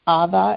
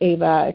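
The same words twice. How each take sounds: First: The name is said with a non-American pronunciation. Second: The name is said with an American pronunciation. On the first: This is how the family's culture says the name. "except we pronounce it Ava in our" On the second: This is the common American form of the name. "we have the name Ava"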